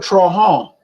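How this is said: The name is said the Lafayette way.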